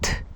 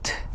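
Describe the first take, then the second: The two takes are said the same way.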